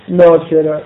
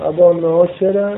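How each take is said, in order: First: ناشره modelled once more after the spelling; correct pronunciation. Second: ابا ناشره with a clear n sound; correct pronunciation. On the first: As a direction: spell out ناشره as "na-she-rah". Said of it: "و را و لها بعدها". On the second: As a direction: say ناشره as "nasherah". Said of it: "ناشره رو هم بخون با چی؟". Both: Shown as a demonstration.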